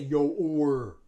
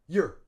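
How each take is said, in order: First: The vowel is full and drawn out. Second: The vowel is reduced to a schwa. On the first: The speaker calls it wrong. "we don't say yo or" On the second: The speaker calls it right. "We use schwa"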